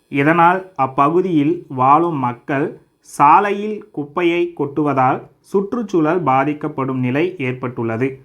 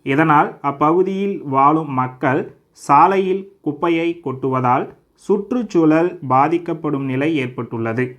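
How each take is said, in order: No difference in how they are said.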